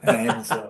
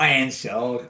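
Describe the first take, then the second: First: The name starts with a clear h sound. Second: The name starts with a vowel, no h. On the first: The speaker calls it right. "Hansard with an H" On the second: The speaker calls it wrong. "not Ansard"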